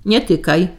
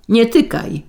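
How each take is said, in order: First: Understated warning cry; a contained "don't touch" shout; mild shout. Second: Higher-pitched warning yell; narrated yell, pitched up but contained; sharper yell. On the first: Husband stopping his wife touching the box, mildly shouted. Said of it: "krzyknął Jątek". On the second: Husband stopping his wife a second time, yelling. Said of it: "wrzasnął Jątek". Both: A narrator's reading.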